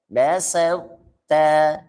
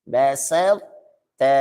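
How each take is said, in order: The two takes are said the same way.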